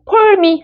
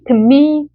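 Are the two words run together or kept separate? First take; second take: separate; run together. First: The two words are said separately. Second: The two words run together as one sound. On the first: The speaker calls it wrong. "for me 하지 마시고요" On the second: The speaker calls it right. "한 사운드로요"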